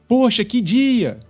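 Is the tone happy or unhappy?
happy. It is said in a happy tone.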